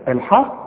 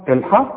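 The two takes are said the same way.

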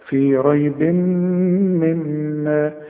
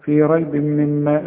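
First: The nasal m sound is held for two beats. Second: The nasal m sound is short, not held. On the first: The speaker calls it right. "يبقى هغن هنا حركتين" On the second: The speaker calls it wrong. "اوعى بقى تقول لي في ريب مما"

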